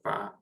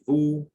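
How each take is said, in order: First: The vowel is an open a sound. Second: The vowel is an unrounded back oo sound. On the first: "or va" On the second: "we don't say vous"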